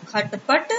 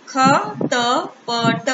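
First: Said in the usual way. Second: Very slow, each syllable of खटपट pulled apart as ख-ट-प-ट; split into syllables. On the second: Shown as a demonstration. Teacher sounding out खटपट slowly for children. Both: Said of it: "अब एक साथ मिला के पढ़ते हैं".

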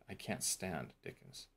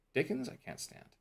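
First: Said in the usual way. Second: "Dickens" pitched high up front, then falling away on "I can't stand"; fronted word stressed. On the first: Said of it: "So you're emphasizing". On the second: Shown as a demonstration. Teacher showing emphasis of a fronted object, stress on "Dickens". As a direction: lift "Dickens" sharply to emphasize it. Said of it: "So you're emphasizing, stress the".

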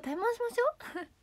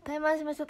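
First: Mock challenge. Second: Said in the usual way. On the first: Mock challenge, repeated higher.

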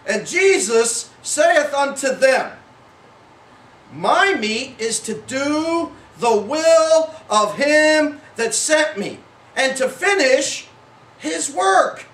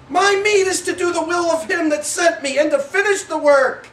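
First: Slow, weighty reading, phrase by phrase; measured scripture reading. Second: Quicker, higher, eager scripture quote; excited reading. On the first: Preacher reading Jesus' words to the congregation, slow and solemn. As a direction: draw out each phrase deliberately. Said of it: "you read it differently than I read it". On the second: Jesus answering the disciples, eager and excited. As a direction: rush it out in one eager run. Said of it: "He was excited". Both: Shown as a demonstration.

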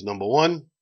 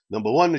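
First: Said in the usual way. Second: Put-on joke-telling Italian accent on the Pope. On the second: The Pope names his first condition to the doctor, in an Italian accent. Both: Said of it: "so I'll try to do the Italian accent".

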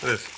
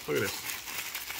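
First: Said in the usual way. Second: Slow, unvoiced whisper; a hushed, secretive whisper. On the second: Shown as a demonstration. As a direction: lean in and whisper it slowly.

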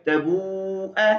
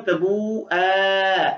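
First: तबू ए read short, with the alif not sounded; correct reading. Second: Slow, stretched written form of तबू ए; written form, drawn out. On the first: Teacher shows the student how to read it, short and correct. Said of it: "लेकिन इसको पढ़ेंगे क्या?". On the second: Teacher reads the written form slowly to the student, stretched. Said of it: "तबू ए लिखने की सूरत है". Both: Shown as a demonstration.

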